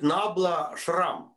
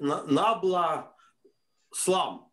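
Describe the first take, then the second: First: The second word is said with an R sound. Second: The second word is said with an L sound. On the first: "he cannot pronounce the letter L, and if you see hear his talk, he calls it Nabla Shram" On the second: "He called it Nabla Slum"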